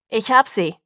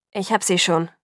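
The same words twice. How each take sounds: First: Loud booming announcement to the search party; booming call. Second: Slightly winded from carrying her; a little out of breath. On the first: Sam tells the searchers he found Bella, booming call. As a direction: boom it out so the whole group hears. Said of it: "rief er dröhnend". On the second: Father carrying his daughter refuses help, a little out of breath. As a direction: say it a bit breathless, still insisting. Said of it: "sagte Charlie ein wenig außer Atem". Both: A narrator's reading.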